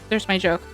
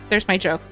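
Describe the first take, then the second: No difference in how they are said.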